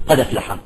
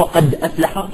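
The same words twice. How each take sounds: First: Softer "قد أفلح" run together as qada-flaha; transferred vowel. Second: "قد أفلح" with a glottal stop before "أفلح"; full hamza. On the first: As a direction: drop the glottal stop in "قد أفلح". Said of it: "تصبح قد أفلح". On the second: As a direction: keep qad and aflaha separate. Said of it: "هي أصلها". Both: Shown as a demonstration.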